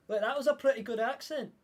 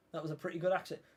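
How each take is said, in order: First: Higher-pitched Scottish lilt; Scottish accent. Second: Said in the usual way. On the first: Pretend. Streamer admires own accent, in a Scottish accent. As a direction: put on a Scottish accent, voice lifted. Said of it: "I'm pretty good at doing Scottish".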